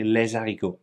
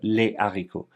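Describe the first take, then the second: First: The s is linked as a z sound. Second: No z sound links the two words. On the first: The speaker calls it wrong. "A common mistake amongst French natives is to say" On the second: The speaker calls it right. "instead of"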